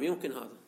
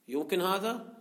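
First: "يمكن هذا" falling, lower and softer, as a statement; answering. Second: "يمكن هذا؟" rising on هذا, as a question. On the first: Teacher answering his own question, matter-of-fact statement. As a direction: settle "يمكن هذا" downward as a quiet answer. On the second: Teacher putting a question to students, questioning. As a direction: ask "يمكن هذا؟" with a lift at the end. Teacher asks, then answers himself. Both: Shown as a demonstration.

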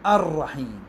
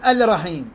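First: "الرحيم" as ar-rahim with doubled r; lam merged into ra. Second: "الرحيم" as al-rahim with a clear l; unmerged l in "الرحيم"; lam sounded, wrong. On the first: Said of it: "أقول". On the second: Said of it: "ما أقول". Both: Shown as a demonstration.

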